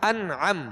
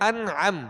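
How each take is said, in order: Both takes have the same delivery.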